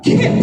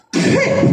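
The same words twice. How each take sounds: First: Kip with a deep q from the back of the throat; Klingon q sound. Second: Kip with a plain k from the front of the mouth; k sound. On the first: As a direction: say kip with the k pushed far back. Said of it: "but kip". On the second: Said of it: "just to illustrate how important these letters are". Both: Shown as a demonstration.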